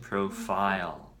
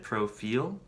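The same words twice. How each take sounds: First: The last syllable sounds like 'file'. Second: The last syllable sounds like 'pil'. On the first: The speaker calls it right. "I just want to correct the pronunciation" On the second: The speaker calls it wrong. "they said profile ... I think you're speaking Korean like the pil"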